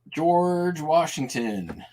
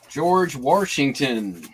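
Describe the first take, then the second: First: It is said in the speaker's plain accent. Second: It is said in a put-on regional accent.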